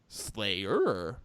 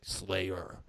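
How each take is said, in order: First: The word is said in a very intense way. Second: The word is said in a calm, plain way. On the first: "that's intense" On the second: "it used to be like"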